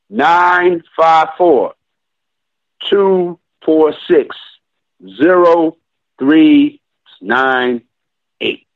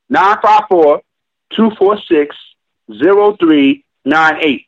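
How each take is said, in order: First: The number is said very slowly. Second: The number is said at normal speed.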